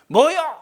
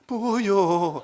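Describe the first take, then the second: First: It is said in an angry tone. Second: It is said in a frightened tone. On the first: "화가 났을 때는" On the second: "무서울 때도 그러잖아요"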